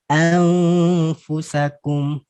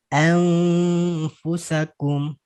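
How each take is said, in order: No difference in how they are said.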